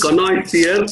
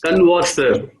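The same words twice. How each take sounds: First: "connoisseur" with an oy sound, kon-noy-seer; first pronunciation, OI. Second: "converser" as kon-wah-ser, French-style; second pronunciation, WA. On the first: Giving a colleague the first option, "connoisseur" with oy. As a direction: say "connoisseur" with OI as in boy. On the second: Giving a colleague the second option, "converser" with wah. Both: Shown as a demonstration. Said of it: "there are two pronunciations".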